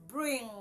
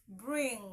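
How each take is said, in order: Both takes have the same delivery.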